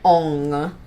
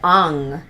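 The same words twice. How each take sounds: First: The vowel in the name is more closed. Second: The vowel in the name is more open. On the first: The speaker calls it wrong. "rather than Ong" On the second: The speaker calls it right. "more of an opened Ong"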